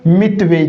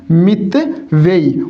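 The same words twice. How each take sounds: First: Said in the usual way. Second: मितव्ययी drawn out in two separated parts; teacher's slow dictation of मितव्ययी; slow sounding-out. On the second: Shown as a demonstration. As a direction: break मितव्ययी slowly into "mit" and "vyayi". Teacher sounds word out slowly.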